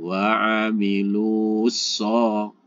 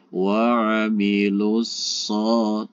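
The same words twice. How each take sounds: First: The vowel is drawn out before the s. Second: The vowel runs straight into the s, short. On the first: The speaker calls it wrong. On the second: The speaker calls it right. "Jadi langsung"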